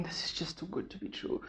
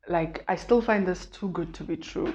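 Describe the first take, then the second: First: Breathy whisper, barely voiced, as if to herself; inner-thought whisper. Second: Said in the usual way. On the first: Whispering her fear to herself after losing weight. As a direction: whisper the doubt like a private thought. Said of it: "I'm just thinking".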